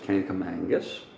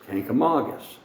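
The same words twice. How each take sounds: First: An extra n sound comes before the g. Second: No n sound comes before the g. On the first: The speaker calls it wrong. "There's no such thing as Cankamangus" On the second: The speaker calls it right. "it's Cankamangus. There's only one N in it"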